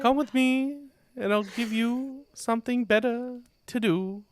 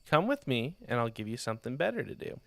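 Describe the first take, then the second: First: It is said in a put-on monk voice. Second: It is read in a plain reading voice.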